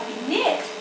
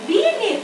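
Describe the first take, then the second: First: The stress is on the second syllable. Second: The stress is on the first syllable. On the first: The speaker calls it right. "Mình đọc là beneath" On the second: The speaker calls it wrong. "Các bạn đọc là beneath"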